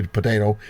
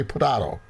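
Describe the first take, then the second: First: Potato as puh-TAY-toh; long AY in the middle of potato. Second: Potato as puh-TAH-toh; broad AH in the middle of potato. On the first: Teacher joking about pronunciations, potato said puh-TAY-toh. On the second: Teacher joking about pronunciations, potato said puh-TAH-toh. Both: Shown as a demonstration. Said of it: "and some say potato".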